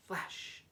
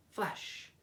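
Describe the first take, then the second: No difference in how they are said.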